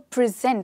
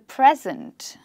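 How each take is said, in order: First: The stress is on the second syllable. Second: The stress is on the first syllable. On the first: It means to offer something to someone. "here, the stress is on the second syllable" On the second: It names the time going on now. "with the stress on the first syllable"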